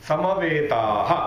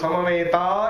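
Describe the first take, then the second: First: The word ends with a final breathy h sound. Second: The word ends plainly on a vowel, no final breath.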